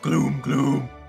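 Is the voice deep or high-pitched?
deep. The voice is very deep and low. The speaker calls it wrong. "Gloom does not have a crazy deep voice"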